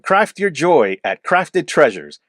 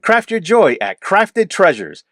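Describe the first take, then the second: First: It is read with fairly plain, restrained emotion. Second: It is read with strongly exaggerated, lively emotion. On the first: "That didn't sound all that great" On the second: "Maybe try and over exaggerate the emotion"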